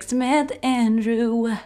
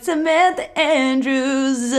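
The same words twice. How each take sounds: First: "Andrew" with no s at the end, slow; a calm correction, "Andrew" without s; corrected surname. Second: "Andrews" with a final s, slow and drawn out; mock-confident "Andrews" ending in s; wrong surname. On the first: Retold or imitated. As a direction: say "Samantha Andrew" slowly, no s. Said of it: "And she's like". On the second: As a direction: say "Samantha Andrews" slowly, adding the s. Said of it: "I'm like".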